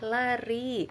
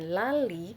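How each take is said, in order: First: The middle consonant is an R sound. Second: The middle consonant is an L sound. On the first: The word follows the agreed language rules. The speaker calls it right. "yang betul adalah lari" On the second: A small child cannot yet say the sound. The speaker calls it wrong. "dia masih cadel, dia sebutkan dengan lali"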